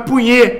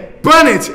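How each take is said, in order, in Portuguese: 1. O nome termina em nh e e fechado. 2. O nome termina com som de t. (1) "não é Punhê" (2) "é Punnett, ele é britânico"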